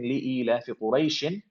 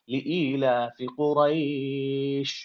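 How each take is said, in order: First: The last word ends with an added -in sound. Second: The last word ends on a bare sh sound. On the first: The reciter continues into the next words. "I'm not saying li ilafi quraishin because I'm stopping" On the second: The reciter stops at this word. "I'm saying li ilafi quraish"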